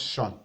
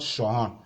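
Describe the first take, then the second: First: Shun as one unbroken beat; one syllable. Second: Shun split into two beats, sho-hon; two syllables. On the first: Teacher correcting the split, shun in just one syllable. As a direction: say shun with a single vowel, no break. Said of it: "So it's just shun". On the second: Teacher showing what to avoid, shun as two syllables sho-hon. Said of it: "that would be two syllables". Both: Shown as a demonstration.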